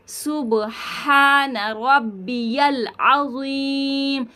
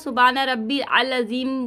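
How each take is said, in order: First: The middle word is said 'rabbiyal' with the 'ya'. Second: The middle word is said 'rabbil' without the 'ya'. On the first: The speaker calls it right. "आपको पढ़ना है" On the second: The speaker calls it wrong. "सुबान रब्बिल अज़ीम बोल देते हैं, तो ये तरीका जो है वो गलत है।"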